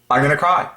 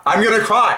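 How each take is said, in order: First: Said in the usual way. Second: Much higher, near tears with excitement; overwhelmed joy. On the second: Real, not acted. Thrilled at his own discovery, much higher and overwhelmed. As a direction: let it burst out as if about to cry.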